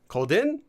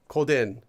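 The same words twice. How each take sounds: First: The pitch rises on the last syllable. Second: The pitch falls on the last syllable. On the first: The speaker is talking down to someone. "it sounds like you're talking down" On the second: The speaker is just giving information. "if you add a falling intonation to this form"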